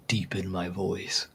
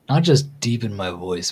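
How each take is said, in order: First: Low, soft and slow "deepen my voice". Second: Said in the usual way. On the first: Shown as a demonstration. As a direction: drop it deep and slow. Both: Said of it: "I need to figure out ways to".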